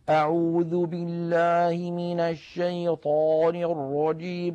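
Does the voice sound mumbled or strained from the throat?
mumbled. It sounds mumbled, as if with food in the mouth.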